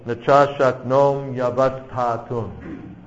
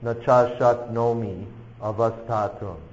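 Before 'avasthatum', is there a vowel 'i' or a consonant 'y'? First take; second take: consonant y; vowel i. First: A consonant 'y' starts the final word 'yavasthatum'. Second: A separate vowel 'i' comes before 'avasthatum'. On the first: The speaker calls it right. "put that Y with the following A" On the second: The speaker calls it wrong. "Don't try to pronounce it"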